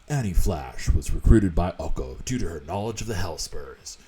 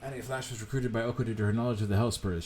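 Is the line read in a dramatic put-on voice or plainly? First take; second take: dramatic; plain. First: It is read in a dramatic, put-on voice. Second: It is read in a plain, ordinary voice. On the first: The speaker calls it right. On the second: The speaker calls it wrong.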